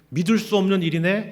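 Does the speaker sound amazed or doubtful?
amazed. It sounds joyful and amazed. This is too wonderful to be true. "처음에는 ... 감격스러운 일이었겠지만"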